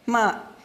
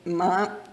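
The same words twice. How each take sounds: First: The syllable is said with the fourth tone. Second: The syllable is said with the second tone. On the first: It means to curse or swear. "ma means to curse or swear" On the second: It means what. "The second tone"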